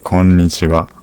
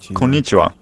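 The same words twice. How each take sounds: First: The first n sound is pressed and held. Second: The first n sound is short and light. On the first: The speaker calls it right. "It's like こんにちは. press that N a bit, the first N" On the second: The speaker calls it wrong. "It's not like"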